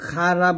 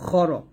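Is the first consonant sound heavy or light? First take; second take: light; heavy. First: The first consonant is said light and thin. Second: The first consonant is said heavy and full. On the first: The speaker calls it wrong. "খারা বলবেন না" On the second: The speaker calls it right. "এই যে মোটা"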